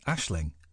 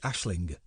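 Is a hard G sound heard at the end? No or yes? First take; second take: no; yes. First: The word ends without a hard G sound. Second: The word ends with a hard G sound. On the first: "I'm not pronouncing the G, I'm pronouncing Aisling" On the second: "If I was pronouncing the G, it would be Aisling"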